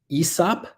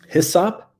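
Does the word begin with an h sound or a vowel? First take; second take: vowel; h sound. First: The word begins with a vowel sound. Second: The word begins with an h sound.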